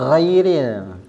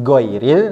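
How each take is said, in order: First: The first consonant is mixed with breathy kh. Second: The first consonant is a hard stopped g. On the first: "campuran gha dan juga kha, hamas masuknya" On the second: "Jangan ada G karena itu bersifat syiddah"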